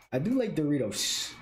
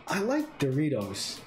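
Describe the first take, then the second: First: "do" stressed, falling at the end. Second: Said in the usual way. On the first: Real, not acted. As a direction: lean into "do" in "I do like Doritos".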